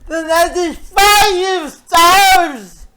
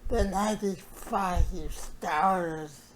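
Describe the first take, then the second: First: It is shouted loudly in anger. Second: It is said quietly with simmering anger.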